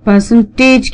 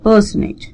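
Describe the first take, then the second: First: The T after the N is clearly pronounced. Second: The T after the N is silent. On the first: "percentage की बजाय" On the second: "it's quickly spoken"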